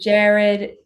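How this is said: The name is said with an American pronunciation. This is how Americans say the name. "they call you Jared"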